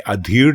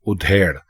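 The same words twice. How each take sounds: First: ادھیڑ as "a-dhi-r", open a; the mistaken ادھیڑ with a and short i; wrong pronunciation. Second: ادھیڑ as "u-dhe-r"; ادھیڑ with u first and long e; correct pronunciation. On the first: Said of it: "یعنی ادھیڑ لکھیں گے ... غلط ہوگا". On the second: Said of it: "یہ ہے". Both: Shown as a demonstration.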